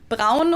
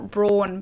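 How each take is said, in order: First: The name is said with a German pronunciation. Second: The name is said with an American pronunciation. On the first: "pretty much like we do in Germany" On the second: "Americans and British people too actually pronounced this brand"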